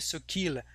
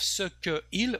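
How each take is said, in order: First: The vowel drops and the words run together. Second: Each word is said separately, vowel kept. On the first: The speaker calls it right. "we say ce qu'il" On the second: The speaker calls it wrong. "instead of ce que il"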